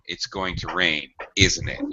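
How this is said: The pitch falls at the end of the tag. The speaker is sure and just wants a response. "Perhaps I can use falling intonation"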